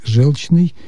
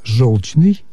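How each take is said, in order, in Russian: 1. Ударный гласный звучит как 'e'. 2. Ударный гласный звучит как 'o'. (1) "Но допустимы варианты «желчный»" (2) "рекомендует в качестве основного вариант «желчный»"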